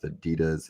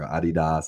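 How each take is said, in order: First: Adidas is pronounced the usual American way. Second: Adidas is pronounced the European way.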